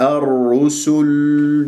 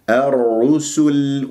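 First: الرسل with lips still rounded on the lam; common error. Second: الرسل slow, sin thin, no emphasis; light sin. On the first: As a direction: wrongly keep rounding through the lam of الرسل. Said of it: "نطقت اللام ولا زالت الشفاه مضمومة". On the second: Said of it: "ولا أفخم السين". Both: Shown as a demonstration.

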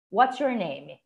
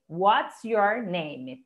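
First: Said in the usual way. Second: WHAT'S YOUR NAME spaced out very slowly; teacher's slow word-by-word repeat; slow model phrase. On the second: Shown as a demonstration. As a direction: say it slowly, each word apart.

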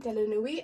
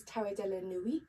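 First: "de la Nuit" repeated with French vowels, "la" and "Nuit" as "nwee"; a playful French accent on "de la Nuit". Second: "Tarot de la Nuit" said the French way, with "Nuit" as "nwee"; a light, playful French accent on "Tarot de la Nuit". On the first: Vlogger repeating the deck's name to viewers, in a light French accent. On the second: Vlogger naming her tarot deck to viewers, in a light French accent. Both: Shown as a demonstration. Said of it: "in my favourite French accent".

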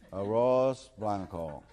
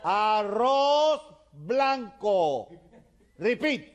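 First: Put-on drawn-out American-accented Spanish. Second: Very slow, high, loud dictation; shouting. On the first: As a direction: repeat it laboriously with American vowels. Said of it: "George tiene que decir". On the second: Acted. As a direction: shout it syllable by syllable for the foreigner to copy. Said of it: "le sigue gritando".

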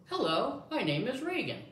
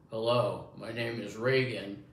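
First: High-pitched lady voice; lady's voice. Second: Lightly lowered man's voice. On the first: Showing the listener the lady voice, high and lilting. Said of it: "the lady's gonna say". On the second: Showing the listener the man voice, lightly imitated. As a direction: say it as a man, a little louder. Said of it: "when you hear a man". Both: Shown as a demonstration.

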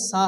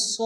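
First: সা with an open, light aa; light sa in সা, not the heavy so; thin wrong vowel. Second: স as a thick so with rounded lips; dark emphatic so sound on স; heavy rounded sad. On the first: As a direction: say সা with unrounded lips. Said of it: "সা হবে না". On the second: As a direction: round the mouth for a full, heavy স. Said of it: "স হবে". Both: Shown as a demonstration.

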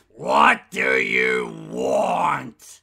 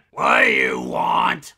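First: Much lower, slow, dragged-out question falling at the end; slow gruff drawl. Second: Much lower, gruff shouted question rising at the end; gruff demand. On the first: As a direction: drag it out, fed up and bored. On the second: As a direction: bark it out like a fed-up soldier. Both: Acted. Grumpy voice bank.

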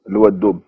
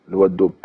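No difference in how they are said.

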